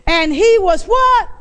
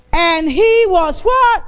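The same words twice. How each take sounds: First: Preacher prompting the crowd to answer; call for response. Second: Louder call for response. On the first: Preacher asking the church to answer back. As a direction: leave the word hanging for them to finish. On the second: Preacher demanding the church answer louder. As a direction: push harder so the whole room answers. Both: Shown as a demonstration. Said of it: "I only heard one person".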